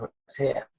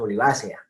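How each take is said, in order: First: The stress is on the syllable 'ce'. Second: The stress is on the syllable 'va'. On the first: The speaker calls it wrong. "no diríamos olivácea" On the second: The speaker calls it right. "el acento es el que casi todos utilizaríamos de modo natural"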